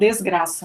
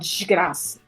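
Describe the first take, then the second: First: It is said without a Carioca accent. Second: It is said in a Carioca accent. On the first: "eu carioca não falo desgraça" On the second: "Eu falo desgraça"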